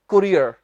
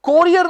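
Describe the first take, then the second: First: The first syllable is said as 'ku'. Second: The first syllable is said as 'ko'. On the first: The speaker calls it right. "कु है ये बस" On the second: The speaker calls it wrong. "कोरियर नहीं, सो को नहीं"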